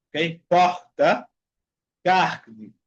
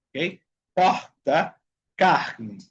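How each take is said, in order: Both takes have the same delivery.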